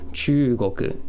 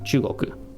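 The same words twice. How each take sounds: First: The first vowel is held long. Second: The first vowel is cut short. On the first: It means China. The speaker calls it right. "you're just holding the tone a little bit here" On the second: It does not mean China. The speaker calls it wrong. "as opposed to chugoku, because that would not mean China"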